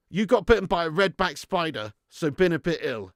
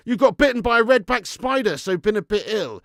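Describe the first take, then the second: First: Said in the usual way. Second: High, loud, startled read-out; shocked reading. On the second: Real, not acted. First reading, shocked at spider bite.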